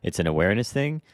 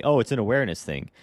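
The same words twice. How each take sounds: First: Incredulous echo. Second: Quick, breezy imitation of a dismissive agent; parroting a lame excuse, a bit fast; mock excuse. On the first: Real, not acted. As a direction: repeat it back in disbelief, rising at the end. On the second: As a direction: toss off the excuse lightly, mocking it. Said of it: "you're gonna tell me".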